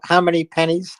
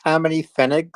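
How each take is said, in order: First: Said in the usual way. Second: Pfennigs said the German way, fay-nik. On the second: Shown as a demonstration. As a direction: pfennigs with German vowels and a hard k ending.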